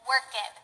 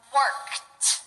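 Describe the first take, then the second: First: The ending is an extra 'ed' syllable. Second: The ending is a short T sound. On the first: The speaker calls it wrong. "to pronounce the ed like ed" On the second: The speaker calls it right. "the ed is pronounced like a t"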